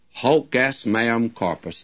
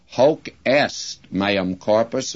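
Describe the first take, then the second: First: Hoc hit hard, falling after; stress on hoc. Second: Est stressed, slow, rising at the end; the preacher's own stress on est. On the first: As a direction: lean on the word hoc. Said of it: "puts the emphasis upon hoc". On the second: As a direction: lean on the word est. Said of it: "I would put the emphasis upon the est". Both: Shown as a demonstration.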